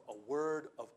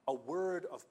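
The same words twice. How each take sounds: The two takes are said the same way.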